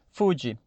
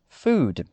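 First: An extra vowel sound follows the final d. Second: The word ends cleanly on the d sound. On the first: The speaker calls it wrong. "automaticamente nós criamos uma vogal de apoio. Então fica assim" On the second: The speaker calls it right. "a pronúncia dessa palavra é food"

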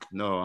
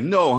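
First: The reaction sounds flat and uninterested. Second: The reaction sounds engaged and genuinely interested. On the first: The speaker is not really listening. "If I'm just like" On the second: The speaker is really listening. "super clear if I'm actually listening to you. I'd be like"

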